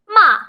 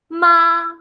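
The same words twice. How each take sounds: First: The pitch falls sharply from high to low. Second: The pitch stays high and level. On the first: It means to scold. "going down really hard" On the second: It means mother. "very flat"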